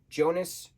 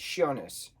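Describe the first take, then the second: First: The name begins with a j sound. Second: The name begins with a y sound. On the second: "Y, the y sound"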